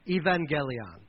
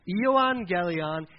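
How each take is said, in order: First: The word is said with a 'v' sound. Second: The word is said with a 'u' sound.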